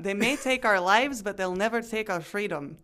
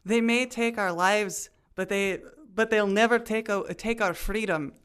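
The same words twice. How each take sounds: First: Put-on clean Scottish accent, rushing the end; one smooth Scottish brogue run, faster at the close. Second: Stumbling Scottish brogue, a bit raised; fumbling Scottish accent. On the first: Host redoes Braveheart line in full Scottish accent. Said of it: "I have to go real fast at the back end 'cause I can't do a". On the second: Acted. Host tries Braveheart line in Scottish accent, fumbling. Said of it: "I couldn't even s-, get the line out".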